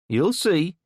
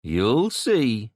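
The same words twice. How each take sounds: First: High, louder warning; ominous kid threat. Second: Repeated threat. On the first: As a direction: spit the warning back. Kid's parting threat. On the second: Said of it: "the kid repeated". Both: A narrator's reading.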